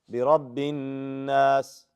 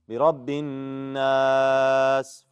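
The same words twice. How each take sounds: First: The long vowel is held for two counts. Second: The long vowel is held for four counts. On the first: "Two حركات" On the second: "Four حركات"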